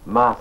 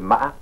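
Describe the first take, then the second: First: It carries the tone that gives the meaning ghost. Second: It carries the tone that gives the meaning horse. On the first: It means ghost. "cela signifie fantôme" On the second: It means horse. "le cheval"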